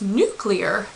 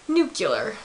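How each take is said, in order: First: The middle syllable sounds like 'clee'. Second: The middle syllable sounds like 'cue'. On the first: The speaker calls it right. "It's nuclear" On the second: The speaker calls it wrong. "not nuclear. / Not NUCULAR"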